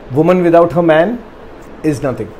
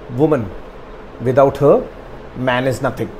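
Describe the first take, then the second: First: It is read without those pauses. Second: Pauses come after "woman" and after "her".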